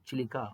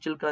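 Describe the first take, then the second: First: The name is said in three syllables. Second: The name is said in two syllables. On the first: This is how local people say it. "Odisha ಜನಗಳು ಅದನ್ನ ಚಿಲಿಕಾ ಅಂತ ಕರೀತಾರೆ" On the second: This is how many people say it. "ಎಷ್ಟೊಂದು ಜನ ಚಿಲ್ಕಾ ಅಂತಾರೆ"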